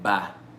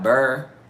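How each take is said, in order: First: The syllable ends with an open 'ah'. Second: The syllable ends with an r-sound. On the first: "we be like ba" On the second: "Instead of burr"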